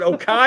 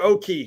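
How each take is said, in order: First: The name ends with an 'eye' sound. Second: The name ends with an 'ee' sound. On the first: The speaker calls it wrong. "Was it Okai or Oki?" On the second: The speaker calls it right. "O K I E, like the Hokies"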